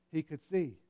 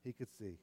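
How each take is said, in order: First: Said in the usual way. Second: Much lower and softer repeat; hushed awe. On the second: Real, not acted. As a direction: let it fall to a hush.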